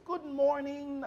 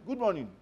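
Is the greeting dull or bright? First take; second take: bright; dull. First: It is said brightly, with a ring. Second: It is said in a dull, flat way.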